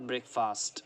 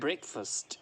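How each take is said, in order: First: The stress is on the second syllable. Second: The stress is on the first syllable. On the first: The speaker calls it wrong. "Not breakfast, wrong" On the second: The speaker calls it right. "Break को stress करना है और fast को पढ़ना है first"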